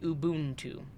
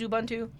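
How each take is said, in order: First: The first vowel is a long 'oo' sound. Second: The first vowel is a short 'uh' sound. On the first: "If it was followed by consonant and then vowel" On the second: "the U is a short U sound"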